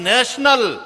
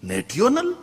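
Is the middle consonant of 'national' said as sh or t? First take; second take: sh; t. First: The middle consonant is a sh sound. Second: The middle consonant is a t sound. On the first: The speaker calls it right. "એલા નેશનલ" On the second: The speaker calls it wrong. "Spelling બોલ"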